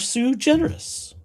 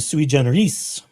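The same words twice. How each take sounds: First: It is pronounced in an English style. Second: It is pronounced in a Latin style.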